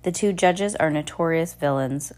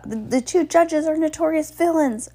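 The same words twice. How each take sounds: First: Said in the usual way. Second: High, insistent announcement; urgent announcement. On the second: A narrator's reading. Klaus announces over the gasping crowd, urgent high announcement. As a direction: announce it with raised pitch. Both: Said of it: "Klaus announced over the gasp".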